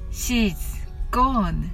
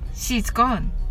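First: The phrase is said slowly. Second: The phrase is said quickly. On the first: "はじめはゆっくりです" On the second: "次に早く言ってみましょう"

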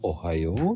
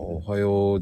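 First: The pitch rises, in a Kyushu manner. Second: The pitch falls, in a Kanagawa manner.

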